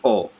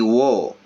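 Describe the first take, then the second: First: The syllable is a bare vowel without w. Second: The syllable begins with a w sound. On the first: The speaker calls it right. "but we say o" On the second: The speaker calls it wrong. "which normally should be wo, like this"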